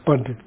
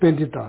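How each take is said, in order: First: The word ends in a consonant, without extra vowel. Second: The word ends in an extra vowel syllable. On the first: This is the original Sanskrit way of saying the word. The speaker calls it right. "that's the probably the right pronunciation" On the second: This is how Tibetans say the word. The speaker calls it wrong. "So Tibetan, we say Pandita"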